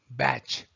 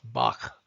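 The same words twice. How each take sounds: First: The name ends with a 'tch' sound. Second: The name ends with a throaty German sound. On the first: The speaker calls it right. "His name is to be pronounced as Bach" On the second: The speaker calls it wrong. "not the German pronunciation of Bach"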